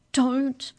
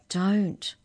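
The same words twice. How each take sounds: First: High, loud pleading DON'T; agonised plea. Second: Raised, urgent warning. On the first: Arthur begging Mallory to stop in court, agonised plea. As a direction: plead urgently, in agony. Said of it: "pleaded Arthur in an agonised whisper". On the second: Arthur warning Mallory not to misbehave, urgent warning. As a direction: warn sharply with one word. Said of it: "warned Arthur". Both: A narrator's reading.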